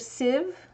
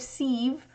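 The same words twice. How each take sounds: First: The vowel is a short 'ih' sound. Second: The vowel is a long 'ee' sound. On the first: "S I H for" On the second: "S E E for sieve"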